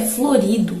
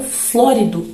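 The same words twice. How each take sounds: First: Florido with the stress on RI; stress on second syllable. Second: Flórido with the stress on FLÓ; flórido as FLÓ-ri-do, first syllable punched. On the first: Teacher describing a flowery dress, florido stressed on RI. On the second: Teacher introducing the word meaning brilliant, flórido stressed on FLÓ. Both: Shown as a demonstration. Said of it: "por conta de uma acentuação".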